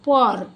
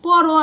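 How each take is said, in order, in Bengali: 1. শব্দটি ব্যঞ্জনে এসে হঠাৎ থেমে যায়। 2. শব্দটি একটি খোলা 'o' স্বরধ্বনি দিয়ে শেষ হয়। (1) "তখন আমরা উচ্চারণ করি পর" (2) "পরও আমরা আর তখন উচ্চারণ করতে পারি না"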